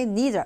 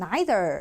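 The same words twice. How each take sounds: First: It is said in an American accent. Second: It is said in a British accent.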